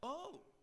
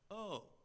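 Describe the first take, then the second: First: It sounds surprised. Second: It sounds dumbfounded.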